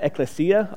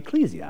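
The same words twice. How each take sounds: First: The stress is not on the middle 'e'. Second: The stress is on the middle 'e'. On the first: "I said ecclesia a long time" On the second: "You notice the accents on the E in the middle? So I started pronouncing it ecclesia"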